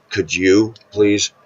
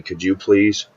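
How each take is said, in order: First: Could you please drawn out slowly, each word weighed; slowed pleading. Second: Said in the usual way. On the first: Shown as a demonstration. Lonely man asking God for a date, slow pleading. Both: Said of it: "say, "God, you know I'm lonely".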